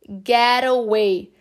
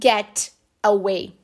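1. O T em get soa como um R rápido. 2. O T em get é um T claro e nítido. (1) "É como se tivesse um R no lugar do T aí no get" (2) "Não get away"

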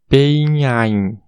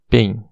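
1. Cada letra vogal tem o seu próprio som vocálico. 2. As letras vogais compartilham um único som vocálico. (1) "se a gente fosse pronunciar o A e o I separadamente em inglês, ficaria PEIN" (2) "A pronúncia correta é pen"

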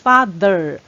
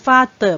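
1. 中间的辅音是 th 音。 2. 中间的辅音听起来像 d。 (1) "舌头是要稍微吐出来一点" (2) "不要念成发的，不是的的音哦"

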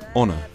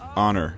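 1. 结尾的 r 音没有发出来。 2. 结尾的 r 音发得很重。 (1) "We tend to pronounce it honor" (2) "Americans tend to pronounce it honor"

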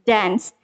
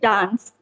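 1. Kata itu diucapkan dengan aksen Amerika. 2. Kata itu diucapkan dengan aksen Inggris. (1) "bahasa Inggrisnya American dance" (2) "Kalau kita British itu dance gitu"

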